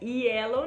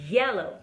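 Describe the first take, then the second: First: It starts with a plain, soft 'i' vowel. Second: It starts with a strongly vibrating 'y' glide. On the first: The speaker calls it wrong. "Não é yellow, não" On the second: The speaker calls it right. "é yellow, yellow"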